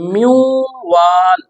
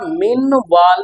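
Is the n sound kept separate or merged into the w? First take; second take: merged; separate. First: The n merges into a nasalized w sound. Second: The n is pronounced clearly before the w. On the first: The speaker calls it right. "हम करेंगे म्यू वाल" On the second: The speaker calls it wrong. "हम इस तरह मिन वाल नहीं करेंगे"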